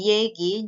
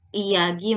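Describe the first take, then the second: First: "yegi" with the a shifted to a ye sound; vowel change. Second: Said in the usual way. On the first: Shown as a demonstration. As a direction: say "yegi", the first vowels fronted to ye. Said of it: "a menjadi y". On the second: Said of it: "menjadi yegi".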